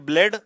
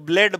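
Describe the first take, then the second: Both takes have the same delivery.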